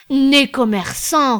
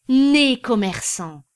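First: Higher, much louder and slow; emphatic repetition. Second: Slow, louder, each word weighed out; emphatic exclamation. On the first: Birotteau repeating his praise of Anselme, loud and slow. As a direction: repeat it with relish. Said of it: "répéta Birotteau". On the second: César admiring his clerk, slow emphatic exclamation. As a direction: proclaim it like a verdict. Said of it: "dit César". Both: A narrator's reading.

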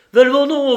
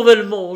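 First: High, loud pleading cry after a man; desperate cry. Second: A second loud, high pleading call; desperate cry. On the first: Banker crying out to Lupin not to go, loud and desperate. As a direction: call out in anguish to stop him. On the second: Banker calling Lupin back a second time, loud and pleading. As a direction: call his name again, begging. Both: A narrator's reading. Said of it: "La voix d'Engelmann s'étrangla".

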